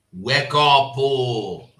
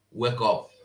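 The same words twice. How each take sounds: First: Emphatic wake-up call. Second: Said in the usual way. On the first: Real, not acted. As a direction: WAKE UP called out louder, drawn-out oh. Repeats the call louder.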